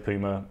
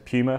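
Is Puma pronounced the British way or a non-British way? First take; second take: non-British; British. First: Puma is pronounced a non-British way. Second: Puma is pronounced the British way. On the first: "We don't say Puma" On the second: "That's how we say it in the UK"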